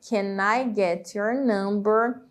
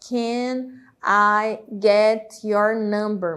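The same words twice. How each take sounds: First: The words run together with reduced sounds. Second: Each word is said separately and fully.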